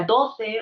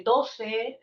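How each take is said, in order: First: The c is said as a th sound. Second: The c is said as an s sound. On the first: "se cesea" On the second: "en vez de"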